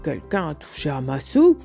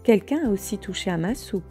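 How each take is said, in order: First: It is said in a big deep voice. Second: It is said in a medium, moaning voice.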